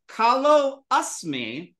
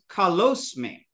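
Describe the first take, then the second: First: The two words are separate, with the vowel. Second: The two words merge, dropping the vowel. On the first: "That was" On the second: "but it becomes"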